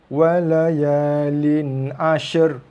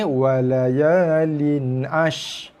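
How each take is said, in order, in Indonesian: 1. Bunyi r akhir menyatu dengan bunyi sh. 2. Bunyi r akhir dihilangkan. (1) "pergi cantumkan menjadi satu bunyi" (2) "Tak ada bunyi ra langsung"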